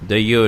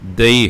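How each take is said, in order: First: The word ends with an added final 'o' vowel. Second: The word is two syllables ending in 'ee'. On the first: The speaker calls it wrong. "ਦਈਓ ਨਹੀਂ ਹੈ" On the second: The speaker calls it right. "ਇਸ ਦਾ ਉਚਾਰਨ ਦਈ ਹੈ"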